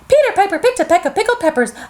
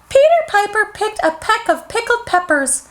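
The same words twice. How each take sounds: First: It is said at medium speed. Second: It is said slowly.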